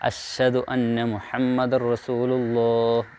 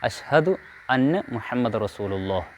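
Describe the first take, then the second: First: The h after the sh is weakly articulated. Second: The h after the sh is clearly articulated. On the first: The speaker calls it wrong. "എന്ന് പറയാറുണ്ട്" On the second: The speaker calls it right. "ഷീനിന് ശേഷം ഹായ വളരെ കൃത്യമായി"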